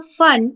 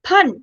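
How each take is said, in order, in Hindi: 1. यह f से शुरू होता है, होंठ बंद नहीं होते। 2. यह महाप्राण p से शुरू होता है, होंठ बंद होते हैं। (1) "वही नुक्ता आ गया फन" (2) "जहां पर आपके दोनों होंठ आपस में चिपकते हैं"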